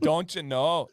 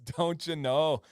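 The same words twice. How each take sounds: First: Minnesota accent with a drawn-out round "know"; a hint of Minnesota nice. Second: Minnesota accent, slow, stretching "know"; slower Minnesota accent. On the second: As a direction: lean into the Minnesota drawl. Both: Shown as a demonstration. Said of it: "Garrett says, "Minnesota".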